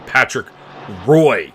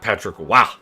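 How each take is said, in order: First: The surname is said like 'roy', rhyming with 'boy'. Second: The surname is said like 'wah', with no 'r' sound. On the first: It is a machine-generated reading of the name. The speaker calls it wrong. "signs you're watching A I content about hockey when Patrick Roy is the pronunciation" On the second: It is the accepted way the name is said. The speaker calls it right. "instead of"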